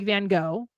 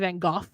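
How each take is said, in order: First: It is said with an American accent. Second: It is said with a British accent.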